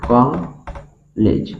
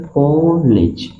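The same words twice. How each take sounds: First: कॉलेज stretched very slowly and softly; careful pronunciation model. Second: कॉलेज stretched slowly; teacher modelling a word; slow sounding out. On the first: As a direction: breathe out कॉलेज syllable by syllable. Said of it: "जब इसका pronunciation आएगा तो कॉलेज". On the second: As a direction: draw out कॉलेज for pupils. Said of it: "अब इसे क्या पढ़ेंगे". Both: Shown as a demonstration.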